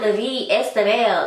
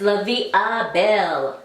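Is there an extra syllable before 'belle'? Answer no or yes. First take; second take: yes; no. First: An extra 'esta' syllable comes before 'belle'. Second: 'Belle' follows with no extra syllable before it. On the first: The speaker calls it wrong. "it is not La Vie Estabelle" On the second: The speaker calls it right. "it's La Vie Belle"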